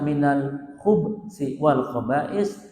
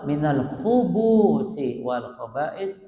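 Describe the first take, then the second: First: The b has no vowel after it: khubsi. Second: The b is followed by a u: khubusi. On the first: Refuge is sought from evil and its doers. "baknya dimatikan" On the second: Refuge is sought from male and female devils. "baknya itu didomahkan"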